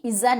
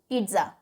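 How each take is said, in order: First: The middle has no t sound. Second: The middle has a light t sound. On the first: The speaker calls it wrong. "पिज्जा नहीं" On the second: The speaker calls it right. "टी की sound आएगी हल्की"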